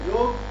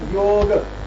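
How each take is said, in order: First: The word ends on a bare g. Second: The first syllable yo is drawn out long. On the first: The speaker calls it wrong. "if I pronounce it as yog, then ga is halan" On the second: The speaker calls it right. "the best technique to pronounce yoga is to take prolonged yo"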